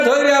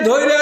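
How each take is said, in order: Both takes have the same delivery.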